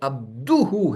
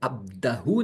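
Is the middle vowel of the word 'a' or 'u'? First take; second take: u; a. First: The middle vowel sounds like 'u'. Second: The middle vowel sounds like 'a'. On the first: The speaker calls it right. "अब्दुहु है" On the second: The speaker calls it wrong. "ये अब्दहु नहीं"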